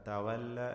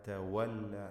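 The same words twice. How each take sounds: The two takes are said the same way.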